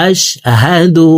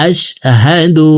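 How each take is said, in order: The two takes are said the same way.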